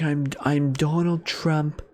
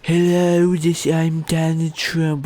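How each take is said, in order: First: Slow, more restrained impression; deeper-style take, drawn out without shouting; Donald Trump. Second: High, louder, dragged-out Trump caricature; bad Trump impression. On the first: Correcting the rapper's Trump, slow understated impression. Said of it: "actual deeper voice than that". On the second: Mocking a rapper's inaccurate Trump, high slow caricature. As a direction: overdo Trump, pitched up and slow. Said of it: "doesn't actually sound like that". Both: Shown as a demonstration.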